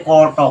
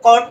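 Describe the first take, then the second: First: ক ট as two syllables, each with its vowel; separate letter sounds. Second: কট as one joined syllable; joined sounds. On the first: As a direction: sound out ক and ট one by one. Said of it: "এই যে ক ট উচ্চারণ করছে". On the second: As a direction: run k straight into a closing t in কট. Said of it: "এটা যদি যুক্ত করি". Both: Shown as a demonstration.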